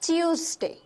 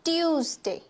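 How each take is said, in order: No difference in how they are said.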